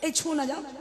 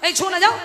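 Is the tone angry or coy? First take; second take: coy; angry. First: It is said in a soft, coy, playful tone. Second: It is said in a sharp, angry, threatening tone. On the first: It is said to a loved one. "ভালোবাসার মানুষকে একরকম" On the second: It is said to a stranger. "অপরিচিত মানুষকে একরকম... তেড়ে যাবেন"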